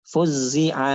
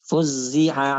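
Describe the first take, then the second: The two takes are said the same way.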